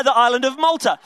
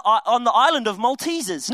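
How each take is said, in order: First: Said in the usual way. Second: Maltesers said like the chocolate, /məltizəz/; wrong island name Maltesers; joke mispronunciation. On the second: Shown as a demonstration. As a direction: slip into "Maltesers" with a laugh. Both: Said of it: "No, no, uh".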